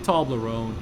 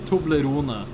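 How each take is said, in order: First: The word ends without a final vowel sound. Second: The word ends with a sounded final vowel. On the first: The speaker calls it right. "I say Toblerone. You don't pronounce the E" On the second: The speaker calls it wrong. "In Norwegian, you do say Toblerone, which I don't like"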